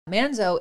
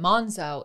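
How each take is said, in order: First: The name is said with an American pronunciation. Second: The name is said with an Italian pronunciation. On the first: "Manzo is like the American way" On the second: "Monzo is the Italian way"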